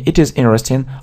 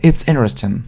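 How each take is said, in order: First: It is said as two separate full words. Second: It is said as one contracted word. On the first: "не it is interesting" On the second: "мы именно часто используем сокращенную форму"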